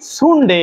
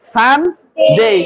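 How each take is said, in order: First: The first vowel sounds like 'oo'. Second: The first vowel sounds like 'uh'. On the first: The speaker calls it wrong. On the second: The speaker calls it right.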